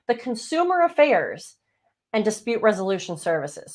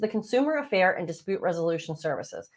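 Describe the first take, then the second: First: The phrase is spoken at a slower pace. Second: The phrase is spoken at a normal, quicker pace.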